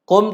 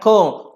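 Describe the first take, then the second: First: The lips close fully on the final m. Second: The lips stay open on the final m. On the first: The speaker calls it right. "Kum tutup mulut" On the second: The speaker calls it wrong. "jangan kum"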